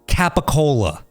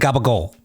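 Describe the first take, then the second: First: The word is said in full, ending in a vowel. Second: The word is clipped, with the final vowel dropped. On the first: This is how the spelling reads. "if you say it the way that it's spelled" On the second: This is how people in the local area say it. "in this area, if you're talking to someone like that, they're gonna say"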